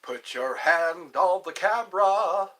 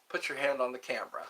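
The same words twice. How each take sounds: First: Loud, slow faith-healer command; Benny Hinn. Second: Said in the usual way. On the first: Acted. Faith healer calling to viewers, loud imitation. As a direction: draw out each word like a healing preacher. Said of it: "Benny Hinn".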